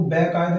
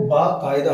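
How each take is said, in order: First: बेकायदा starting with "be"; wrong first vowel. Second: बाकायदा starting with long "baa"; correct first vowel. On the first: Teacher rejecting a misspelling, बेकायदा with "be". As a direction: say बेकायदा as "be-kaayda". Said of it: "वो बेकायदा नहीं होता". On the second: Teacher correcting students' spelling, बाकायदा with long "baa". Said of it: "वो बाकायदा होता है". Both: Shown as a demonstration.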